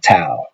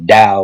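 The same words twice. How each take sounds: First: The word begins with a T sound. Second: The word begins with a D sound. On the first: "people will say Tao" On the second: "I pronounce it Tao with a D as it is. That is the appropriate way to say it"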